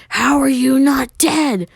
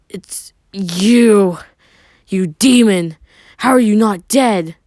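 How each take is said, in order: First: Much higher, louder and slower; outraged, high slow demand; furious shriek. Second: Loud, high shocked cry; stunned loud accusation; shocked outburst. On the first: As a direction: scream it as she grabs him. Sakura grabs him furious. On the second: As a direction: shout it out in disbelief. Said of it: "staring in shock". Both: A narrator's reading.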